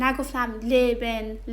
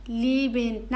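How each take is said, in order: First: Leben with short e, "leh-ben"; mock wrong leben with short e. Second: Leben with long ee, "lee-ben"; long first vowel in leben; correct leben. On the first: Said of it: "leben اشتباهه". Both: Shown as a demonstration.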